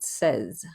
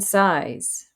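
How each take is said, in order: First: It sounds like the English word 'says'. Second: It sounds like the English word 'size'. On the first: The speaker calls it right. "as in he says, she says" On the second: The speaker calls it wrong. "or even size"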